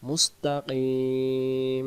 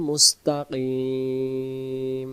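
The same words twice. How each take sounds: The two takes are said the same way.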